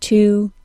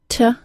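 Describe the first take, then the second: First: The word is said in its full form. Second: The word is said in a reduced form. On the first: "when I say them in isolation, I say their full citation form" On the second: "Reduced forms are sometimes shown second and sound like"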